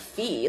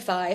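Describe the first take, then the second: First: The vowel sounds like 'ee', as in fee. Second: The vowel sounds like 'eye', as in Fido. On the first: The speaker calls it wrong. "like what the f- what the F is fee?" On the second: The speaker calls it right. "It definitely has to be Phi for Fido"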